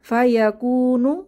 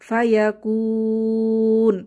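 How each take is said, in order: First: The word ends with a short final vowel. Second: The final vowel is dropped; the long vowel stretches. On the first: The reading continues without a stop. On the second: The reader stops on this word.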